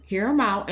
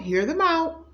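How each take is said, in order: First: Said in the usual way. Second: Pitched way up, pressing hard on hear them out; emphatic plea. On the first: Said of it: "repeats urging calmly". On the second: Shown as a demonstration. Urging the viewer to hear them out, pressing. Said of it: "urging viewer to listen".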